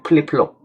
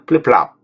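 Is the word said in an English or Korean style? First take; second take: Korean; English. First: Plain Korean style, without the accent near the end. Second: English style, with a slight accent near the end. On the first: "우리는 한국 사람이기 때문에 그냥 플립플롭" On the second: "원어로는 이제 플립플랍 이렇게 얘기를 하는데 뒤쪽에 약간 악센트가 있는 것처럼"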